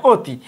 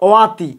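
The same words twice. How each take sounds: First: অতি with closed "o", "o-ti"; as pronounced. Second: ওয়াতি with open first vowel, "aw-ti"; as written. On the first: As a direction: round the first vowel of অতি. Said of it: "আমরা ওর মতো করব". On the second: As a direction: read ওয়াতি as spelt. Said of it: "উদাহরণ লিখছি". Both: Shown as a demonstration.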